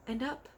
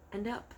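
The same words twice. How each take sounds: The two takes are said the same way.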